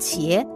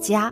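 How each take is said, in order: First: It is pronounced qie. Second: It is pronounced jia. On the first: The speaker calls it right. "应该读成茄" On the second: The speaker calls it wrong. "而不是加"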